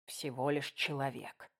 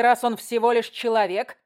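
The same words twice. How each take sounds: First: Much softer, lower hurt repeat; quiet echo. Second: Louder, icy scornful prince; cold voice. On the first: A narrator's reading. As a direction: murmur the words, wounded. Narrator echoing words, hurt. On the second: Acted. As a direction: sneer the word human coldly. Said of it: "Голос Кирана звучал холодно".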